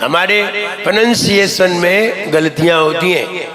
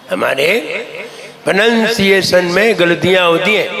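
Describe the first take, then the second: No difference in how they are said.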